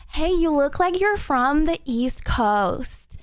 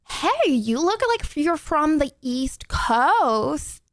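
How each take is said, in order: First: Put-on lighter American accent, a bit less drawn out; retry the American accent with less drag. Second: Put-on slow, overdone American accent, words stretched out. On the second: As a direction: drag out a clumsy American accent. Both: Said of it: "the accents got worse because I started talking slowly".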